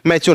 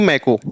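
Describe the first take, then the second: First: The middle consonant is a ch sound. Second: The middle consonant is a k sound. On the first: The speaker calls it right. "मैचो न कि मैको" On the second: The speaker calls it wrong. "न कि मैको"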